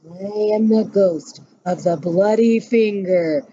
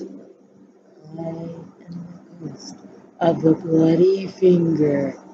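First: It is said louder still. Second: It is said faintly and softly.

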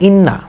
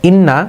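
No difference in how they are said.

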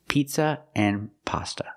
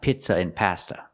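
First: The vowels sound like the 'ee' in 'green' and the 'o' in 'hot'. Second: The vowels sound like the 'i' in 'it' and the 'a' in 'cat'. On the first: The speaker calls it right. "So the words are pronounced pizza and pasta" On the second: The speaker calls it wrong. "Not pizza and pasta"

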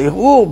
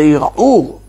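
First: The ayin is dropped, leaving plain vowels. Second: The ayin is pronounced as a throat sound. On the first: "כשאתה לא מבטא את העין" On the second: "אם אתה מבטא את העין"

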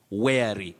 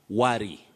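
First: The first vowel sounds like 'air'. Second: The first vowel sounds like 'uh'. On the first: The speaker calls it right. "You say wary" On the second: The speaker calls it wrong. "many people find themselves mispronouncing it as worry, which is wrong"

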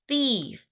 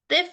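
First: The vowel is the standard long ee sound. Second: The vowel sounds different from the ee sound. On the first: The speaker calls it right. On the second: The speaker calls it wrong.

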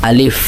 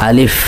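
Both takes have the same delivery.

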